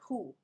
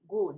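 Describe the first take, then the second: First: It begins with a soft, H-like sound. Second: It begins with a hard G sound. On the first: The speaker calls it wrong. "not who" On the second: The speaker calls it right.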